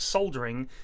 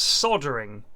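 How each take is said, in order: First: It is said in a British way. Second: It is said in an American way.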